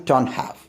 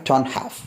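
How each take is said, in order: The two takes are said the same way.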